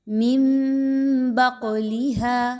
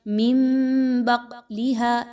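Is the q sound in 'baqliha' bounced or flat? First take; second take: bounced; flat. First: The q sound has a short echoing bounce. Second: The q sound is flat, without an echoing bounce. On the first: The speaker calls it right. "बल्कि हिलाकर" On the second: The speaker calls it wrong. "ऐसे नहीं पढ़ना"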